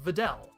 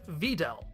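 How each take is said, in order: First: The stress is on the final syllable. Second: The stress is not on the final syllable. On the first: The speaker calls it wrong. "with emphasis shifted to the end of the word" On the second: The speaker calls it right. "Nozawa nails it. It's pronounced Videl"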